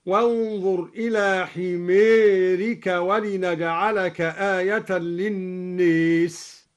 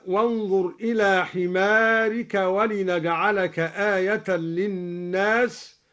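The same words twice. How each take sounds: First: حميرك and للناس with long a tilted to "ee/ay"; slow recitation, للناس said "linnes", حميرك "himērika"; imala vowel tilt. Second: Said in the usual way. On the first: Shown as a demonstration. Teacher demonstrating al-Duri's imala on حميرك and للناس. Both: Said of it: "أمال كلا من حمارك".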